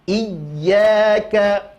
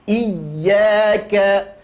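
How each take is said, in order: The two takes are said the same way.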